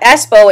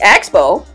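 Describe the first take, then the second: First: The word has no k sound before s. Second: The word has a k sound before s. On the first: The speaker calls it wrong. "it's not Espo" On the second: The speaker calls it right. "it's Expo"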